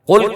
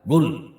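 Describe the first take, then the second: First: It starts with a deep q sound. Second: It starts with a g sound, like modern Arabs.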